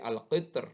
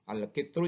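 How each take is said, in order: First: The word ends on a silent final consonant. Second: The word ends with a short vowel.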